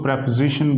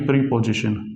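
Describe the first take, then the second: First: The first vowel is short, like 'prep'. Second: The first vowel is long, like 'pree'. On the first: The speaker calls it right. "इसको प्रेपोजिशन बोलते हैं" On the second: The speaker calls it wrong. "ना कि प्रीपोजिशन"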